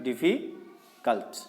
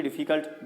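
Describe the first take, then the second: First: difficult drawn out slowly, pausing between syllables. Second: Said in the usual way. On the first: Shown as a demonstration. Teacher showing students difficult can't be read at once, slow syllables. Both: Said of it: "इसको एक बार में नहीं पढ़ सकते".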